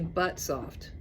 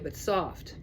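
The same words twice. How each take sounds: First: The stress falls on the word but. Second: The stress falls on the word soft. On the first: The speaker calls it wrong. "I wouldn't say but soft. But soft sounds strange" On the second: The speaker calls it right. "I would say but soft"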